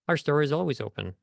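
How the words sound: The words glide smoothly into one another. The speaker calls it right. "the right way would be ... like blending through your words, connecting the words"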